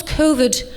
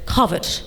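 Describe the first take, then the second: First: Said in the usual way. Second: "covid" said the affected posh English way; mock how a very posh man mangles "covid"; posh mispronunciation. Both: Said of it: "he can't actually pronounce words right".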